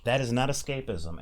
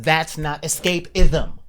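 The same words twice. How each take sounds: First: Said in the usual way. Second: "that's not escapism" much louder and slower, each word pressed; louder repeat for the back. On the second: Shown as a demonstration. Repeating the point to the back of the room, louder and slower. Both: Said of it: "for you guys in the back".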